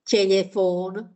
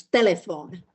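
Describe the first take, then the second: First: Telephone with palatalized t and l, like "tyelyefon"; dialectal soft consonants. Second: Said in the usual way. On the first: Shown as a demonstration. Warning students off an uneducated sound, palatalized telephone. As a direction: soften the t and l in telephone. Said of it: "sort of uneducated in a way or dialectal". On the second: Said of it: "they are pronounced as internationally".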